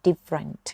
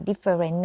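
First: "different" in two syllables, dif-rant; correct pronunciation. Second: "different" in three full syllables, di-fe-ren; wrong pronunciation. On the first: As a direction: drop the middle vowel of "different": DIF-rant. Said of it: "อ่านว่า different". (อ่าน "different" สองพยางค์ว่า ดิฟ-เรินท์) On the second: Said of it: "คำนี้ไม่อ่านว่า different นะคะ". (อ่าน "different" แบบสามพยางค์ ดิ-เฟอ-เรน) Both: Shown as a demonstration.

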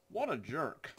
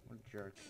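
First: Higher, rising put-on outrage on jerk; mock indignant. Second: Quiet mutter. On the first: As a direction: ham up the insult. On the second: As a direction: mumble it to yourself. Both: Real, not acted.

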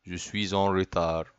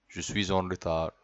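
The two takes are said the same way.

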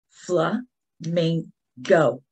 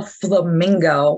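First: "Flamingo" very slowly, as fla, min, go; a long pause between the three beats of "Flamingo"; clapped-out syllables. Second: Said in the usual way. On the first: Shown as a demonstration. Teacher clapping with children, "Flamingo" split syllable by syllable. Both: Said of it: "we're gonna clap out the syllables".

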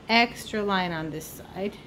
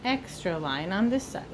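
Both takes have the same delivery.

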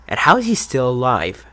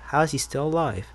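First: Said in the usual way. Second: Softer, higher, musing question; asking himself. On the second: Real, not acted. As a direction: wonder it half to yourself. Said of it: "really asking myself".

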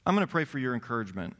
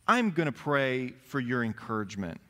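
First: Fast, rattled-off take; quick repeat. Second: Said in the usual way. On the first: Acted. Preacher repeating the prayer line to the congregation, fast. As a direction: rush through it like a routine line.

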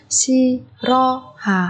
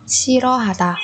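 First: Slow, spaced Shirohata; syllable by syllable. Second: Said in the usual way. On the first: Shown as a demonstration. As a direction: break Shirohata into four beats. Teacher splits word by syllable. (đọc chậm Shirohata từng âm tiết)

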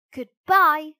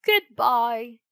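First: A bright, loud "Goodbye.". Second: "Goodbye," called out loud at normal pitch. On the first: Pinocchio storming off from the fox, loud goodbye. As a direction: fling out "Goodbye." high and loud. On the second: Fox and cat calling after Pinocchio, loud call. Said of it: "called the fox and cat". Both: Acted.

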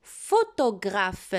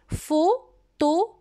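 First: "Photographe" joined up as one word, slowly; whole word dictation. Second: "Photographe" in four slow pieces, pho… to… gra… phe, higher pitch; syllable by syllable. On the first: (« Photographe » dit en entier, lentement) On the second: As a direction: dictate "Photographe" slowly, pausing after each syllable. (« Photographe » découpé lentement en quatre syllabes) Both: Shown as a demonstration. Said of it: "Ce mot se compose de quatre syllabes".

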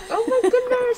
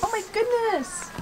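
First: High delighted exclamation; delighted surprise. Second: Soft laughing exclamation. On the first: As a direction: gush over the cat. Cat rubs past her legs. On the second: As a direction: laugh through the words. Laughs at the cat. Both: Real, not acted.

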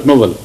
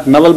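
First: "Nawal" with a rounded o in the first syllable; corrected pronunciation. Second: "Nawal" with an open a in the first syllable; rejected pronunciation. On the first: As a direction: say "Nawal" as NO-val. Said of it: "Not Nawal, but Nawal". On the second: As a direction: say "Nawal" as NA-val. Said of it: "Not Nawal". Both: Shown as a demonstration.

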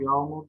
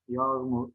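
First: "yağmur" with an l, yalmur; l in place of ğ in "yağmur"; misspelt form. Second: Said in the usual way. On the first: Shown as a demonstration. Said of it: "yanlış yazılmış olan sözcüklerin". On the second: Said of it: "doğrularını yazalım".

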